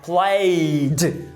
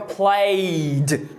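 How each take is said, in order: Both takes have the same delivery.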